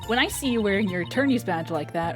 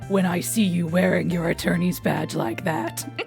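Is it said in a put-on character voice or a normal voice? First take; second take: normal voice; character voice. First: It is said in the speaker's normal voice. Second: It is said in Snake's put-on character voice.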